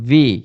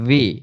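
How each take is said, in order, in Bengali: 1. এটা v ধ্বনি দিয়ে শুরু, উপরের দাঁত নিচের ঠোঁটে লাগে। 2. এটা v ধ্বনি দিয়ে শুরু, উপরের দাঁত নিচের ঠোঁটে লাগে।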